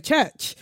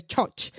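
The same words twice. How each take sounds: First: Said in the usual way. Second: "church" with an open ah vowel and no r, like chahch; "church" said chahch, Nigerian-accented. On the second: Retold or imitated. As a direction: say "church" as chahch, the way the character does. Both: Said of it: "instead of church".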